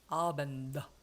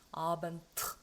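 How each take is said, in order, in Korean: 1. 이 단어는 유성음 'd' 소리로 끝나요. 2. 이 단어는 무성음 't' 소리로 끝나요. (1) "이걸 제대로 발음하려면 아벤다 이렇게 돼야 되거든요" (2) "요거를 내가 무성음으로 좀 해야 되겠다"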